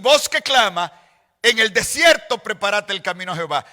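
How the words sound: The pause comes after the word clama. The way is to be prepared in the desert. The speaker calls it right. "es voz que clama. Dos puntos"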